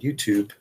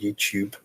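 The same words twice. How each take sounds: First: It is said in an American accent. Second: It is said in an English accent.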